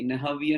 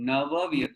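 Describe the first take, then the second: First: The first word ends in an 'h' sound. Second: The first word ends in a 'v' sound. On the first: The speaker calls it wrong. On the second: The speaker calls it right.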